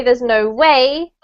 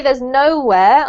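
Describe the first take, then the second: First: "no way" with the emphasis landing on "way"; stress on WAY. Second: "nowhere" stressed on its first syllable, no. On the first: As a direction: lean on "way" rather than "no". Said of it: "the emphasis is on that". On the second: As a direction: hit "no" in "nowhere", let "where" follow lighter. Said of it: "I put the emphasis on this". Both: Shown as a demonstration.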